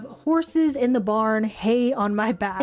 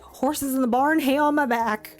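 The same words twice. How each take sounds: First: Said in the usual way. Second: Quicker, slightly raised catchphrase; demonstrated catchphrase delivery. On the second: Shown as a demonstration. Showing viewers how to say the new phrase, catchphrase delivery. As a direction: toss it out as one punchy saying. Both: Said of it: "you gotta say it like".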